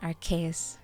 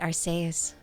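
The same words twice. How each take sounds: First: The c is pronounced as a k sound. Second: The c is pronounced as an s sound. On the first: "in English it becomes a K" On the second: "I will just turn it into a S"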